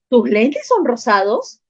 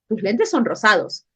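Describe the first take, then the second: First: It is said with question intonation. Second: It is said with statement intonation. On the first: It asks whether it is true. "la otra pregunto" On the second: It asserts a fact. "una afirmo"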